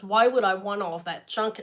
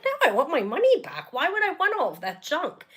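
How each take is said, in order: First: Said in the usual way. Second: Imagined sharp comeback, said a bit tensely; indignant inner retort. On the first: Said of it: "I didn't say it like that". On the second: Retold or imitated. To customer support, imagined indignant refusal. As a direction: snap back as you wished you had. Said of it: "I didn't say it like that. That's in my head".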